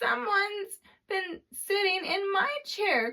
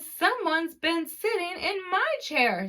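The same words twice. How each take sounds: First: It is said in a tiny, small voice. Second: It is said in a medium-sized voice. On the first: "cried the baby bear in his wee small voice" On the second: "said Mama Bear in her medium-sized voice"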